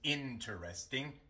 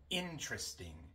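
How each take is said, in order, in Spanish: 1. La vocal antes de la r se pronuncia completamente. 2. La vocal antes de la r se omite por completo. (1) "No decimos interesting" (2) "La E antes de la R se omite"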